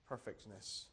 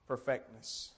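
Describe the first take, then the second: First: Hushed echo. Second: Said in the usual way. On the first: Shown as a demonstration. Quiet echo of the verse word.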